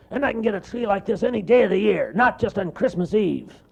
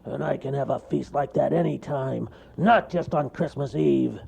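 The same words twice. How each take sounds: First: High, loud, fast bear brag; cartoon bear showing off; bragging bear. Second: A touch high and loud bear voice; boasting bear. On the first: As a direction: rattle off the boast. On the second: Acted. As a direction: repeat the boast. Bear repeats his boast.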